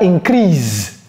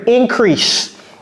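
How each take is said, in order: First: The final consonant is a buzzing z sound. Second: The final consonant is a hissing s sound. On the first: The speaker calls it wrong. "Ce n'est pas increase" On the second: The speaker calls it right. "comme si c'était deux S"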